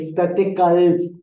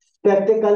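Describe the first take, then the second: First: स्पेक्टिकल्स with a clear final s sound; teacher models स्पेक्टिकल्स, ending on a crisp s; correct plural with s. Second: स्पेक्टिकल said with no final s sound; teacher shows the wrong स्पेक्टिकल, ending bare on l; wrong form without s. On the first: Teacher to class, modelling the correct plural ending in s. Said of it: "स्पेक्टिकल नहीं बोलेंगे". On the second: Teacher to class, demonstrating the wrong form without final s. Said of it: "नहीं बोलेंगे". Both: Shown as a demonstration.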